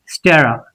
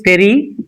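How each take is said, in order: First: The second vowel is a weak 'uh' sound. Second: The second vowel is a clear 'e' sound. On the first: The speaker calls it right. "This is a, so stera" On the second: The speaker calls it wrong. "here it is steri, but it is not steri. There is no e sound"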